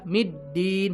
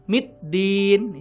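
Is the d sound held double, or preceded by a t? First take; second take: double d; t first. First: The d is held long as a double d. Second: A short t comes before a single d. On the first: The speaker calls it right. "Harusnya kan gitu" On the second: The speaker calls it wrong. "nggak sedikit yang baca M I T D I N"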